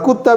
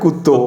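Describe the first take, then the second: First: The word ends in an 'a' vowel. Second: The word ends in an 'o' vowel. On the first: "और कुत्ता मैंने" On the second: "ओ की मात्रा लगा दे हैं"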